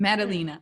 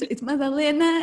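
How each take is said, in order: First: The name has an Americanized pronunciation. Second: The name has its native pronunciation. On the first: This is how other people say the name. The speaker calls it wrong. "everyone would say Madalena" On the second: This is how the name's owner says it. The speaker calls it right. "it's actually not, that- it's, it's Madalena"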